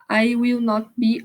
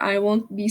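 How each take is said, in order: First: 'Will not' is said as two full words. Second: 'Will not' is contracted into one syllable. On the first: "forma normal" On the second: "forma contraída"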